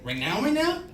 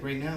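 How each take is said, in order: First: High, loud, incredulous question; mock-panicked double take, swooping up; shocked echo. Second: Said in the usual way. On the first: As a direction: repeat it in rising disbelief. His shocked echo of the doctor.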